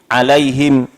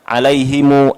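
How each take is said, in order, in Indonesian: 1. Kata itu berakhir dengan m polos setelah hi. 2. Kata itu berakhir dengan tambahan u setelah m. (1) "ada yang mensukunkan mim" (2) "ada yang mensilahkan"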